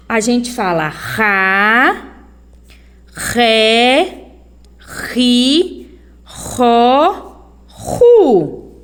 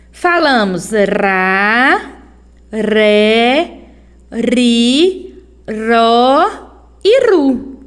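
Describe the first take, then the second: First: Ra, ré, ri, ró, ru with a strong throaty R; strong R syllables. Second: Ra, ré, ri, ró e ru slowly, with a light tapped R; weak R syllables. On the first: Teacher drilling strong-R syllables for the class. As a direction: sound out each syllable with a guttural R. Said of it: "quando o som é forte". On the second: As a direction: tap the R lightly on each syllable. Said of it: "Quando o som é fraco". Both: Shown as a demonstration.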